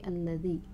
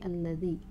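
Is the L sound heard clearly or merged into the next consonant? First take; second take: merged; merged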